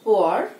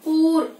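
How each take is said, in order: First: The vowel glides from oo to a. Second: The vowel does not glide from oo to a. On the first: The speaker calls it right. "Ua sounds" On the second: The speaker calls it wrong. "Ua sounds poor కాదు"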